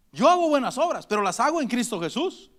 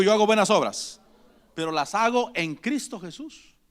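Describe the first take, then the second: First: Said in the usual way. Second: Lead-in for the congregation. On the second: Shown as a demonstration. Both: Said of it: "Diga conmigo".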